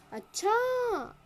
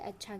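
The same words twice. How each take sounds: First: अच्छा drawn out very slowly, much higher and louder, falling; a long astonished अच्छा; exclaimed surprise. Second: Said in the usual way. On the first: Shown as a demonstration. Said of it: "ऐसे एकदम". ("अच्छा" को बहुत खींचकर, ऊँचे सुर में, ज़ोर से और गिरते सुर के साथ) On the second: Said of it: "विस्मयादि बोधक चिन्ह भी दिया गया".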